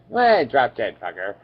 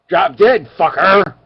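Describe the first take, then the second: First: It is said in a calm tone. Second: It is said in an angry tone.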